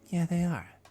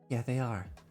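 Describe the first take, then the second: First: The voice is soft, light and feminine. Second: The voice is deep, low and gruff. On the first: The speaker calls it right. "I have to do a female voice" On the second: The speaker calls it wrong. "I'm getting too Batman"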